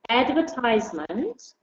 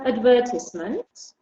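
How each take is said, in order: First: It is said with an American pronunciation. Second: It is said with a British pronunciation. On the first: "which is the American English, the U S English" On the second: "which is the British English"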